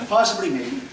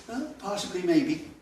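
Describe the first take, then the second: First: Laughing through "Possibly, maybe."; a louder, amused elder's polite dismissal; "Possibly, maybe." delivered with a laugh as the punchline; laughing quote. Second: Said in the usual way. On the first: Retold or imitated. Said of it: "she would say". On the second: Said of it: "that expression means".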